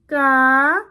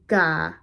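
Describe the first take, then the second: First: The syllable is said on a high tone. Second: The syllable is said on a level mid tone. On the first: "A high tone would be" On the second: "With a midtone"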